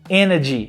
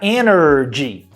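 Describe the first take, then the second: First: The R sound in the middle is dropped. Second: The R sound in the middle is pronounced.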